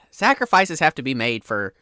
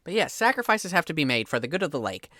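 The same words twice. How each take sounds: First: Lightly voiced fisherman, sighing and defensive; a cult-like fisherman justifying himself; flustered fisherman. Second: Lightly voiced fisherman, calm and certain; matter-of-fact fisherman. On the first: Fisherman explaining his sacrifice to the player, mildly defensive. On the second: Fisherman repeating his lake creed to the player, matter-of-fact. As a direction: state it like obvious folk wisdom.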